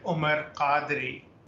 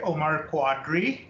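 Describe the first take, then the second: First: The surname starts with a 'k'-like sound, no 'w'. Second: The surname starts with a 'kw' sound. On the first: This is the original form used in Pakistan. "That's how it would be said in, in back in Pakistan" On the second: This is the form used in America. "since I've been in America, I just say Omar Quadri"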